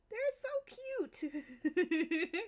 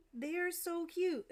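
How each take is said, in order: First: Stretched out very slowly, laughing and higher; adoring laughing coo; slow laughing gush. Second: Gushing. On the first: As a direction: melt over how cute they are, through a laugh. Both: Real, not acted. Gushing over cute faces.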